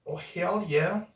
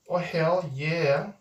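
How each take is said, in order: First: Said in the usual way. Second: Slow drawn-out "Oh, hell yeah". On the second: Shown as a demonstration. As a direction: stretch "Oh, hell yeah" out slowly, savouring it.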